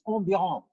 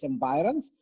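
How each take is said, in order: First: The word is said with a French pronunciation. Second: The word is said with an English pronunciation. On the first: The speaker calls it wrong. "or in French is environ" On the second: The speaker calls it right. "I would say it's environs"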